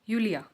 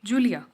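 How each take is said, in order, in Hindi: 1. इस नाम की शुरुआत Y की ध्वनि से होती है। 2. इस नाम की शुरुआत J की ध्वनि से होती है। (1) "अगर हम इसे जर्मन में प्रोनाउंस करेंगे तो ये होगा" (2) "दिस इन इंग्लिश इज़"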